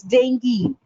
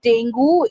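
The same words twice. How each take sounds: First: "dengue" as DENG-gee, hard G; "dengue" slowly with an EE ending; correct pronunciation. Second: "dengue" as DENG-goo, rising; "dengue" with an OO ending; wrong pronunciation. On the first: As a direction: end "dengue" on ghee. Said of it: "it's dengue". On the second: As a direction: end "dengue" on a questioning goo. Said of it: "It's not dengue". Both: Shown as a demonstration.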